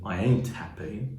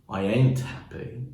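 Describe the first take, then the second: No difference in how they are said.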